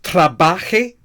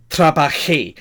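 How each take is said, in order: First: "trabaje" stressed on BA, the last syllable left weak; stress on the middle syllable. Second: "trabajé" with the last syllable JÉ stressed; stress on the final syllable. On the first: Teacher shows students the wrong form, stress on the middle of "trabaje". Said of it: "it's not trabaje". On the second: Teacher corrects the form for students, stress on the end of "trabajé". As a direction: land firmly on the end: tra-ba-JÉ. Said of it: "The stress is on the final syllable". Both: Shown as a demonstration.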